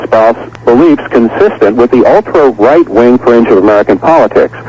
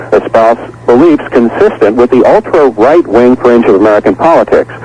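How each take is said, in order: Both takes have the same delivery.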